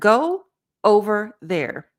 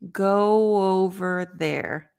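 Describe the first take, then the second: First: The words are separated from each other. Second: The words are linked smoothly together. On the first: The speaker calls it wrong. "Instead of" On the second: The speaker calls it right. "You're not separating the words"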